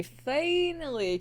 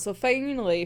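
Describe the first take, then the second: First: Finally stretched slow and high, relieved; drawn-out finally. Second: Said in the usual way. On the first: Shown as a demonstration. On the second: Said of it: "finally, finally".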